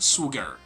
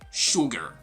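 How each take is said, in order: First: The word begins with an 's' sound. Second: The word begins with a 'sh' sound. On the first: The speaker calls it wrong. "not su" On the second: The speaker calls it right. "the sound is shu"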